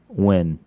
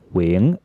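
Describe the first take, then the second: First: The name is said in an American accent. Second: The name is said in a Vietnamese accent. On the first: "the Americanized way to say it" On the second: "with the Vietnamese accent"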